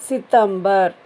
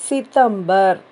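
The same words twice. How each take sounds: Both takes have the same delivery.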